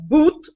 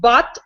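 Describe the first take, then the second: First: The vowel is an 'oo' sound. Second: The vowel is a short 'uh' sound. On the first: "but boot" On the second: "She said not but"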